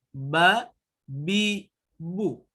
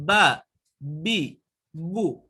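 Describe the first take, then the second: No difference in how they are said.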